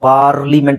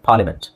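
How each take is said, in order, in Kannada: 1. ಮೊದಲ ಸ್ವರದ ನಂತರದ ಆರ್ ಉಚ್ಚರಿಸಲಾಗುತ್ತದೆ. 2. ಮೊದಲ ಸ್ವರದ ನಂತರದ ಆರ್ ಮೌನವಾಗಿದೆ. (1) "ಇಲ್ಲಿ ಪಾರ್ಲಿಮೆಂಟ್ ಅಂತ ಹೇಳೋ ಅವಶ್ಯಕತೆ ಇಲ್ಲ" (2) "ಆರ್ನು ಸೈಲೆಂಟ್ ಮಾಡ್ಬೋದು"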